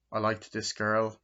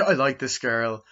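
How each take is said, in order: First: Said in the usual way. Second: Chuckling as you start over; laughing restart. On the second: Real, not acted. Reviewer restarting his jealousy story after a joke, laughing. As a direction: say it through a laugh, louder. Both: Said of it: "no, I'm joking".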